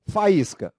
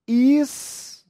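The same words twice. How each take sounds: First: Said in the usual way. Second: Faísca with the í sung much higher and rising; stressed í in Faísca. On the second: Shown as a demonstration. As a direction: lift the í of Faísca up high, rising at the end. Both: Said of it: "Acompanhado ou não de S".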